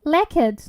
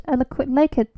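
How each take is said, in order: First: Lacquered said as lack-erd; looked-up pronunciation. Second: Lacquered said as lay-kered; mispronounced word. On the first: Streamer trying the looked-up Lacquered as lack-erd. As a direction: say Lacquered with a short lack vowel. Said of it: "They say it's right". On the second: Streamer stumbling over lacquered, saying lay-kered. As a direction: read lacquered with a long lay sound. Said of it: "that doesn't feel right". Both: Shown as a demonstration.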